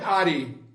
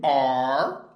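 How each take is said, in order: First: An extra vowel is sounded after the r. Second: No vowel is sounded after the r. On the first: The speaker calls it wrong. "Não é are" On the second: The speaker calls it right. "Esse E aqui não tem som"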